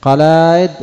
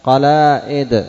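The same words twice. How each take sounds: First: قلائد high and loud, no glottal stop; original form without hamza. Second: قلائد slow, glottal stop before the i; hamza replacing alif. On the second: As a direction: draw out قلائد, break it with hamza. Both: Shown as a demonstration. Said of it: "فالهمزة بدل الألف".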